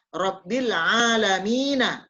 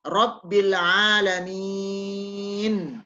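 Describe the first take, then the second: First: The last word ends on the vowel a. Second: The last word ends on the consonant n. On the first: This is the full written form. "Tapi tulisannya Rabbil alamina" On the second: The reader stops at the end of the verse. "Disusu, disukunkan"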